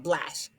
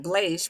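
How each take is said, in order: First: BLASH with short A, as in "cash"; short vowel sound. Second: BLASH misread as "blaysh"; mispronounced long vowel. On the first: Teacher giving the correct reading, short-vowel "blash". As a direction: say "blash" correctly, rhyming with "flash". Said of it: "but blash". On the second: Teacher showing what it is not, mispronounced "blaysh". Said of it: "Not blash". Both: Shown as a demonstration.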